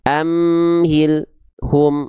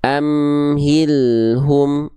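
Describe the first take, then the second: First: The word is broken by a pause after the l. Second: The word is said smoothly without a break. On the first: The speaker calls it wrong. "lam sukunnya itu dibaca dengan keadaan terputus" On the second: The speaker calls it right. "Yang lebih tepat adalah yang satu"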